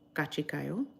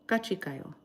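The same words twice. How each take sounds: First: The voice rises at the end, like a question. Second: The voice falls at the end, like a statement. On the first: It sounds like a question. The speaker calls it wrong. "It's not a question though. So I should not say it like that" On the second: It is a statement. The speaker calls it right. "It's a statement"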